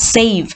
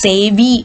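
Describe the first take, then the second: First: The word ends on the consonant 'v'. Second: The word ends with an added vowel sound. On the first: The speaker calls it right. "That word ends in വ" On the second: The speaker calls it wrong. "സേവി എന്നൊന്നുമല്ല"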